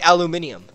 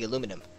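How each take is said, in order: First: The word has five syllables, with an extra -ni-. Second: The word has four syllables, ending in -num.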